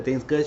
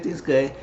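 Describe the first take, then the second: First: "Thing's good" rising at the end; questioning tune. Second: "Thing's good" falling at the end; answering tune. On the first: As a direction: ask "Thing's good" as a check. Retold question, then same words answer. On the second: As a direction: state "Thing's good" as a reply. Retold answer to same question. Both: Retold or imitated.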